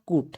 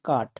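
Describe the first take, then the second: First: The vowel sounds like 'oo'. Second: The vowel is a short 'uh' sound. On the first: The speaker calls it wrong. "Not কুট" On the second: The speaker calls it right. "ইউ এর short sound কি হবে, আ"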